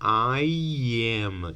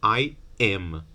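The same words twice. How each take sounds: First: A y sound links the two words together. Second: The two words are said separately, without a glide. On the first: "It's very common to hear people say I am" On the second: "instead of I am"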